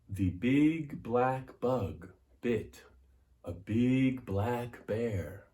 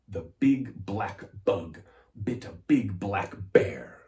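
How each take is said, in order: First: The vowels are stretched and drawn out. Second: The consonants are hit hard and crisp.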